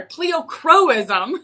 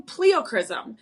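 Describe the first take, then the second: First: Pleochroism said slowly as plee-oh-KROH-iz-um, all syllables clear; careful fix, pleochroism spelled out in sound; corrected pleochroism. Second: Pleochroism said as plee-oh-KRIZ-um, dropping the O before the last syllable; rushed pleochroism squashed into three beats; slip on pleochroism. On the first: Host correcting herself on air, careful plee-oh-KROH-iz-um. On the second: Host on air first stumbling over pleochroism, slurred plee-oh-KRIZ-um. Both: Real, not acted. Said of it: "sorry, pleochroism".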